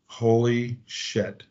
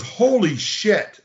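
First: Slow, hushed holy shit as it dawns; quiet slow dawning shock; stunned realization. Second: Higher, drawn-out "Holy shit"; Jim's shocked reaction. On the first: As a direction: let "Holy shit" sink in slowly and quietly. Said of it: "And I went". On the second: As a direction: stretch "Holy shit" up high and slow in disbelief. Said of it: "He goes". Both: Retold or imitated.

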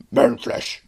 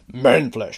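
First: Breathy whispered orc; whispered orc line. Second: Said in the usual way. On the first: Retold or imitated. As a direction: hiss it like a hungry orc. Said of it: "that's what everybody's expecting the guy to say". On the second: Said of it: "that's what everybody's expecting".

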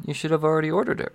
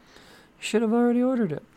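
First: Said in the usual way. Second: Much higher, put-on teasing voice; high mock voice. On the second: Teasing viewers who haven't ordered, high mock voice. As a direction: repeat it in a silly high voice.

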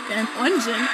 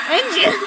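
First: Said in the usual way. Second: Engine! said higher and punched; fixing a slip with a firm Engine!; emphatic correction. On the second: Shown as a demonstration. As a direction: snap out the word Engine!.

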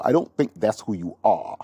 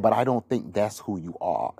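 First: Light imitation of a British accent. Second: Said in the usual way. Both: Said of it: "he said it in his British accent".

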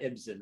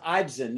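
First: "Ibsen" said as IB-sen; short-i pronunciation. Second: "Ibsen" said as EYEB-zen; long-i pronunciation. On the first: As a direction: start "Ibsen" with the vowel of "it". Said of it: "Well, it's Ibsen". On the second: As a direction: open "Ibsen" with an "eye" vowel. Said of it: "not Ibsen, right?". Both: Shown as a demonstration.

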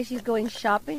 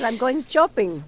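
First: Said in the usual way. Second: Imitating mom's thick accent, sheets becomes chits; mock immigrant mother accent, going shopping as chopping; affectionate impression of mother's accent; mother's Spanish accent. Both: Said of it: "pero mi mamá habla así".

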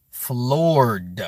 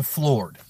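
First: "Floored" stretched into two long beats, falling; emphatic FLOORED. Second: Said in the usual way. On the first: Real, not acted. Streamer predicting viewers' shock, "Floored" drawn out emphatically. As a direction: draw out "Floored" slowly, landing the final d.

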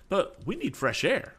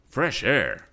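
First: High-pitched, insistent complaint; worried complaint, pitched high; fretful passenger. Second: Louder, higher startled echo; taken aback, voice jumping up. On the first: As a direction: press the point in a raised pitch. Fretful passenger demands air, then echoed. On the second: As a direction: repeat it as a startled question. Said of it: "There was a startled note in Mister Swift's voice". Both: A narrator's reading.

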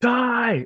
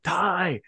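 First: Much higher, louder yell of the name; louder second yell. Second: Higher call across the room; first call out. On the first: Calling a hockey star again, much higher and louder. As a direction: shout it now he must hear. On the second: Calling a hockey star in a restaurant, higher first call. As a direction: call out a name, getting his attention. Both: Retold or imitated. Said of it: "I, I yelled".

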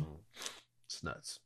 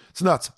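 First: Whispered. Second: Said in the usual way. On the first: Real, not acted. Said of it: "repeated, first whispered". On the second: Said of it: "repeated, second in his usual voice".

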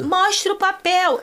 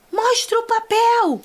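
First: High, slow mock demand; drawn-out, pitched-up demand; demanding friend. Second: High, slow mock demand; hammered demand, pitched up and drawn out; demanding friend. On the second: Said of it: "fala assim". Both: Samira confronting the attendants, high slow demand.

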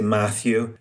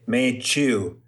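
First: Said in the usual way. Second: Put-on Italian accent, Matthew said slowly as Maychu. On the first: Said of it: "They can't say Matthew". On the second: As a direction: stretch Matthew out with a ch for the th. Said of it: "in Trieste, they say Matthew with a ch".

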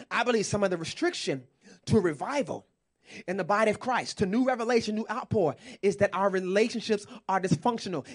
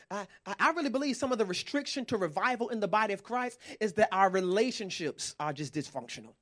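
First: Repeated emphatically. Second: Said in the usual way. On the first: Shown as a demonstration. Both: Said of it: "Let me say it again".

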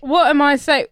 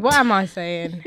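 First: "what" punched, higher and louder; stress on what. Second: Slow, leaning on "am"; "What am I saying" drawn out, weight on "am"; stress on am. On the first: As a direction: start "What am I say" with a hard "what". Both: Shown as a demonstration. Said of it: "What are you saying".

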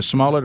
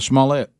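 First: "smullet" stressed on the first syllable; "smullet" with a short, weak ending; everyday pronunciation. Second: "smallette" with a French-style -ette ending; "smallette" with the last syllable fully sounded; sharp pronunciation. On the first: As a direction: say "smullet" to rhyme with mullet. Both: Shown as a demonstration. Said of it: "if you wanna be sharp".

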